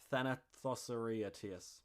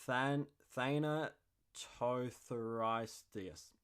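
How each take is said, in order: First: Thanatotheriatis rattled off quickly, syllables blurred into "Thanatothe-ri-atis"; a quick, careless stab at Thanatotheriatis; botched first try. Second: Than-, Thanatotheriatis sounded out very slowly after a false start on "Than-"; a slow, deliberate retry at Thanatotheriatis; careful second try. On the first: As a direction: Thanatotheriatis mumbled in one rushed go. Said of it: "That's not even close". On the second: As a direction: restart and spell out Thanatotheriatis slowly, syllable by syllable. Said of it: "I'm gonna try again". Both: Shown as a demonstration.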